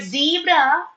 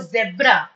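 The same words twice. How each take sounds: First: "zebra" said as zee-bra; long ee in "zebra"; first syllable of "zebra" rhymes with see; American pronunciation. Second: "zebra" said as zeb-ra; short e in "zebra"; first syllable of "zebra" like web; British pronunciation. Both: Shown as a demonstration. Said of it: "both are correct".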